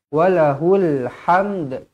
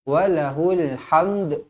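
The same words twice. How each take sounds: First: The word ends with an audible d sound. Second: The word ends with an audible d sound.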